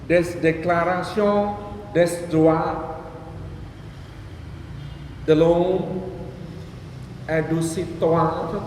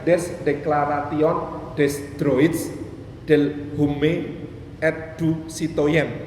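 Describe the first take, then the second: First: It is pronounced with French sounds and silent letters. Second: Every written letter is pronounced as it is spelled. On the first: "Itu kan bacanya susah banget" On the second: "Padahal tulisannya"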